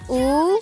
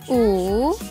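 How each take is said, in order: First: It is said with the second tone. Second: It is said with the third tone. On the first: "Bentuk kedua" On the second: "Bentuk ketiga"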